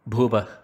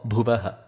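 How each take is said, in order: First: The word ends with a breathy h sound. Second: The word ends with a ha syllable. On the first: "not Bhuvah" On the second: "or Bhuvaha"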